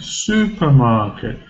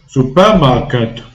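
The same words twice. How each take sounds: First: The first syllable carries strong stress. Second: No syllable carries any stress. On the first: The speaker calls it right. "Su is stressed" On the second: The speaker calls it wrong. "or without any stress"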